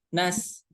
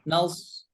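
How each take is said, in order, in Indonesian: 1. Bunyi s itu tipis dan ringan. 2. Bunyi s itu tebal dan berat. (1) "kalau seperti itu jadi masuknya ke huruf sin ya" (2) "cara membacanya tetap harus dibaca tebal"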